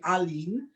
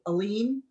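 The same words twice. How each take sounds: First: The name is said with an Armenian accent. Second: The name is said with an American accent.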